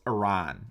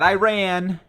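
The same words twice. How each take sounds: First: The word does not sound like 'I ran'. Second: The word sounds like the phrase 'I ran'. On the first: The speaker calls it right. "No, it's Iran" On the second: The speaker calls it wrong. "not Iran, not I ran to the store"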